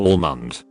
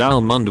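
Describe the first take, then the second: First: The first syllable sounds like 'owl'. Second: The first syllable sounds like 'Al'. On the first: This is how the friends say it. "They say it to where it almost sounds like they say owl" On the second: This is how the narrator says it. "I say it like the name Al... with a more pronounced er"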